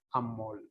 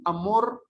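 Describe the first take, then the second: First: "amor" con l final, "amol"; lateralización. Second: "amor" con r final clara; r final pronunciada. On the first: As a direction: cambia la r de "amor" por una l. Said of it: "se llama lateralización". ("amor" dicho amol) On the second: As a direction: remata "amor" con la vibrante simple. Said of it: "En vez de decir". ("amor" con su r, sin volverla l) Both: Shown as a demonstration.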